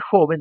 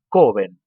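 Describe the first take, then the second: First: It begins with a rasping Spanish j sound. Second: It begins with a hard k sound. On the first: This is the standard Spanish pronunciation. "En vez de decir joven" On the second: An Italian speaker who cannot pronounce the Spanish j says it this way. "dicen coven"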